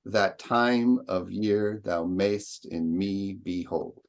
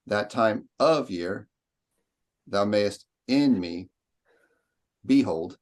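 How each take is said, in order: First: Slow, sing-song iambic beat, every stress punched; exaggerated meter. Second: Slow, choppy, stress on the wrong beats; wrong stilted reading. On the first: Teacher showing the sonnet's meter, slow and overstressed. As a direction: hammer the meter out like a metronome. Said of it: "I'm exaggerating, but for the sake of the meter". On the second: Teacher showing how not to recite, stilted and slow. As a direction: read it stiffly, word by word. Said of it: "You wouldn't say". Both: Shown as a demonstration.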